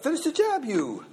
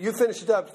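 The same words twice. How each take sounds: First: Hawaiian Pidgin word order, verb thrown high up front; Hawaiian Pidgin English. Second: Said in the usual way. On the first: Shown as a demonstration. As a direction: Hawaiian Pidgin demo, high pitched Finish. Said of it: "kind of a Hawaiian English". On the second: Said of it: "But instead of".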